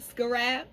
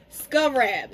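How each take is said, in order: First: "Scarab" said like skuh-RAP; second suggested pronunciation. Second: "Scarab" said like SKUV-rap; first suggested pronunciation. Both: Shown as a demonstration. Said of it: "try the way both of y'all told me".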